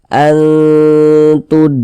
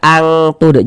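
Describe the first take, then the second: First: The n is hidden with a held nasal hum. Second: The n is said as a clear ng sound. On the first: The speaker calls it right. "Kita samarkan seperti ini" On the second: The speaker calls it wrong. "Jangan dibaca angtud"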